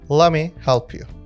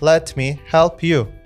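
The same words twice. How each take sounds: First: "Let me" is reduced to "lemme". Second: "Let me" is said fully and carefully.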